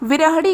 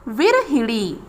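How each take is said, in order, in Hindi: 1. ह के बाद कोई i स्वर सुनाई नहीं देता। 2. ह के बाद i स्वर सुनाई देता है। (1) "विरहड़ी गलत है" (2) "हा में ई की मात्रा का प्रयोग किया जाता है"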